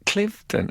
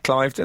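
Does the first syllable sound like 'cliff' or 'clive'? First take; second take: cliff; clive. First: The first syllable sounds like 'cliff'. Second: The first syllable sounds like 'clive'. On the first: The speaker calls it right. "I think it might be called Clifton" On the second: The speaker calls it wrong. "I feel a wince every time you do it"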